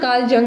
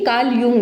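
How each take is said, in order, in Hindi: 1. इस उपनाम की शुरुआत J ध्वनि से होती है। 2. इस उपनाम की शुरुआत Y ध्वनि से होती है। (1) "इसको जंग प्रोनाउंस नहीं करना, कार्ल जंग नहीं है" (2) "ये कार्ल यूंग है"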